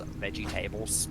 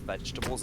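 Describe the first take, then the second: First: It is split into 'veggie' and 'tables'. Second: It is said the usual way, as one word.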